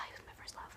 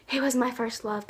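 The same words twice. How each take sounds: First: A dreamy sigh into a whisper. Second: Said in the usual way. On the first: Real, not acted. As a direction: breathe it out on a lovesick sigh. Sighed whisper repeat of line.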